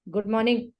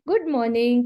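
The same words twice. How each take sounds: First: It is said curtly, without warmth. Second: It is said warmly, with affection.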